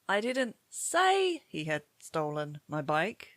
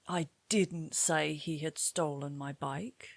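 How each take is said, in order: First: The word "say" carries the main stress. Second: The word "didn't" carries the main stress. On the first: It was written rather than spoken. "Maybe you wrote a WhatsApp message" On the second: Someone claimed it was said, but it was not. "somebody claimed you said this, but in fact, you didn't"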